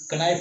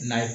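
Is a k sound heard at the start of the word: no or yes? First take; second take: yes; no. First: The word begins with a k sound. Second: The word begins with an n sound. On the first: The speaker calls it wrong. "इसको कनाइफ नहीं पढ़ते" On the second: The speaker calls it right. "नाइफ पढ़ते हैं। इसमें के क्या होता है, साइलेंट होता है।"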